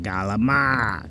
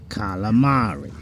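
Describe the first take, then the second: First: It starts with G and drops the final vowel. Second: It starts with K and keeps the final vowel. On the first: This is how the speaker's family says it. The speaker calls it wrong. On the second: This is the standard way to say it. The speaker calls it right.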